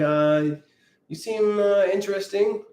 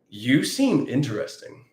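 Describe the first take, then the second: First: It is said hesitantly, with pauses and fillers. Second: It is said smoothly, without pauses or fillers.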